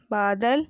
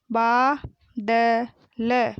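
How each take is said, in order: First: Said in the usual way. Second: बादल drawn out as baa, da, la; very slow बादल, each letter held apart; spelled out. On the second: Shown as a demonstration. Teacher sounding out बादल for pupils, syllable by syllable. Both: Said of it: "मैंने इस तरीके से पढ़ा".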